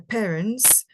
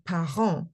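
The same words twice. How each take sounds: First: "parents" said as English PAIR-ents; English reading. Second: "parents" said as French pa-ʁɑ̃, nasal end, silent t; French reading. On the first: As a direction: read "parents" the English way, wrong for French. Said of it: "we're not gonna say". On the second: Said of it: "we're gonna say". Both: Shown as a demonstration.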